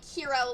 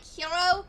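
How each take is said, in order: First: The word is said with English-style pronunciation. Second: The word is said with Japanese-style pronunciation. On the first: "Western like Hero" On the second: "the Japanese version of Hero"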